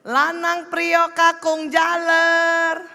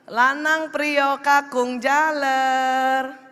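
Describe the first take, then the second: First: It is called at a very high pitch. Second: It is called at a raised pitch.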